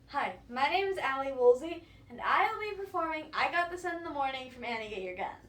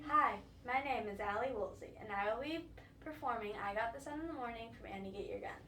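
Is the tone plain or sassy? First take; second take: sassy; plain. First: It is said in a cheerful, sassy tone. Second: It is said in a plain tone.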